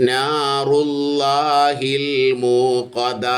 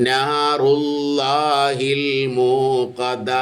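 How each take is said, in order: The two takes are said the same way.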